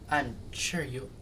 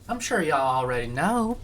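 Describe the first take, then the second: First: It is said in the speaker's normal voice. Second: It is said in a put-on regional accent.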